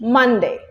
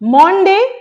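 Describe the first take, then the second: First: The first syllable sounds like 'mun'. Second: The first syllable sounds like 'mon'. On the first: The speaker calls it right. "So you should say Monday" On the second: The speaker calls it wrong.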